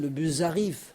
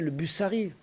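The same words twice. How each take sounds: First: The words link the way Breton speakers do. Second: The words link the way standard French does. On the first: The speaker calls it right. "à la bretonne" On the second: The speaker calls it wrong. "c'est pas comme en français"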